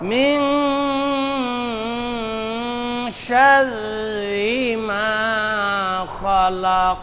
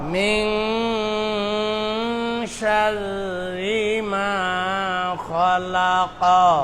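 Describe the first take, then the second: First: The last word ends in a bouncing stop. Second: The last word ends with a short vowel. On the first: The reader stops at this word. "কফের উপর মনে মনে জজম দিলে এটা কি হয়ে যাবে? কলকলা" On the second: The reading continues without stopping. "কফের উপরে জবর"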